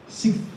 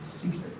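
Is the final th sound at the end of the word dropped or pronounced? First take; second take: dropped; pronounced. First: The final th sound is dropped or swallowed. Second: The final th sound is fully pronounced. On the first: "You might hear something like sixth" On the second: "Native speaker can never say sixth. It's not possible"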